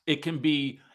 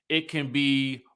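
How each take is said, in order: Both takes have the same delivery.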